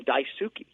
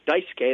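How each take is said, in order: First: The name is said with American pronunciation. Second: The name is said with Japanese pronunciation. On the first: The name is adapted for an American audience. The speaker calls it wrong. "they Americanize them" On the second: The name is said the way its owner says it. The speaker calls it right. "instead of calling Daisuke Matsuzaka Daisuke"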